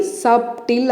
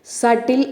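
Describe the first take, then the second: First: సబ్టిల్ with the b sounded; wrong pronunciation. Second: సటిల్ with a silent b; correct pronunciation. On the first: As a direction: say సబ్టిల్ as "SUB-til". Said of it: "pronunciation wrong అనమాట". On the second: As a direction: say సటిల్ as "SAT-il", no b. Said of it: "అని పలకాలి". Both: Shown as a demonstration.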